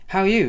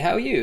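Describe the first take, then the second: First: It is said in a plain, smooth voice. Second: It is said in a croaky, rough voice.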